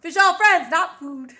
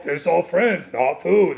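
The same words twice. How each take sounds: First: Light, playful Australian imitation; Australian accent. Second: Lightly voiced Australian accent; a hint of Australian shark. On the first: Shown as a demonstration. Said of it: "let me hear your Australian accent". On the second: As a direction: attempt a mild Australian accent, easygoing. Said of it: "That's my accent".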